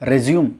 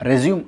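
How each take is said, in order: First: The word ends with an 'm' sound. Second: The word ends with an 'm' sound.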